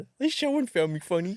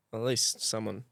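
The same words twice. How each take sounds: First: High, exaggerated pitiful whine; mock sad. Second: Soft, low, wounded mumble; sad. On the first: Joker mimicking his own sad remark, hammed-up. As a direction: parody a wounded sad sack. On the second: Real, not acted. Prankster consoling himself about the joke, sadly. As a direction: let it trail off quietly, a bit sorry for yourself. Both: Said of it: "That sounded so sad".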